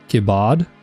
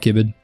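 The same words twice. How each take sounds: First: The stress is on the second syllable. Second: The stress is on the first syllable. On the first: The speaker calls it wrong. "They emphasize the bard" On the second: The speaker calls it right. "I'm just gonna stick to Kibbard"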